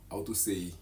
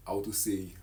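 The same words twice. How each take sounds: The two takes are said the same way.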